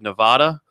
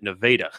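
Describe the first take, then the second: First: The name is said with the state's usual pronunciation. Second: The name is said with the local Missouri pronunciation. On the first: It names the western state. "what basically is the state of Nevada" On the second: It names the Missouri town. "They pronounce it Nevada"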